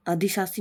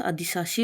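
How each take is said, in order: First: अधिशासी with s in both places; no sh sound in अधिशासी; wrong form of अधिशासी. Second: अधिशासी with a sh sound; correct form of अधिशासी. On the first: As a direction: say अधिशासी as adhi-saa-see. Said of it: "नहीं होता". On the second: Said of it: "होता है". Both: Shown as a demonstration.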